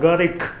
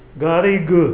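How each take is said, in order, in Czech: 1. Jméno končí na zvuk k. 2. Jméno končí na zvuk g. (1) "u nás se vyslovuje pořád Garik k na konci" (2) "Tam je G"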